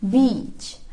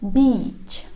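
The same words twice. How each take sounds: The two takes are said the same way.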